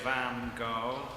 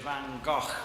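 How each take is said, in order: First: It is said the way Americans say it. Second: It is an attempt at the Dutch pronunciation. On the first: "The Americans say" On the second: "the Dutch say Van Gogh, which I can't say"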